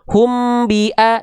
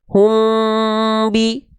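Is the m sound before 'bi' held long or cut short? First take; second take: cut short; held long. First: The m runs straight into the next sound. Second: The m is held softly before the next sound. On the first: The speaker calls it wrong. "nggak langsung ini" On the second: The speaker calls it right. "jangan lupa dia ditahan dua harokat"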